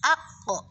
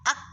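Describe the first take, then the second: First: The consonant releases with a strong added echo. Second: The consonant stops with no added echo. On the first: The speaker calls it right. "tapi harus ak ko" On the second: The speaker calls it wrong. "tidak boleh hanya ak saja"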